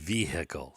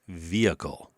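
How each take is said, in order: First: The h in the middle is pronounced. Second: The h in the middle is silent. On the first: The speaker calls it wrong. "I've heard people in courts say the vehicle" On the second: The speaker calls it right. "It's a H is silent"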